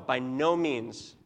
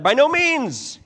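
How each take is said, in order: First: It is said flatly, without force. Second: It is said forcefully, as an exclamation.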